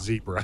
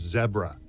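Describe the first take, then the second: First: The first vowel is long, as in 'bee'. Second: The first vowel is short, as in 'bed'. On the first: This is what many Americans say. The speaker calls it wrong. "not zebra" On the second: This is the proper name. The speaker calls it right. "the proper name is zebra"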